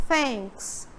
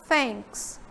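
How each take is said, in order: The two takes are said the same way.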